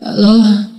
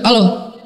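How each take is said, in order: First: It is said softly, like someone just waking. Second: It is said in a rough, harsh voice.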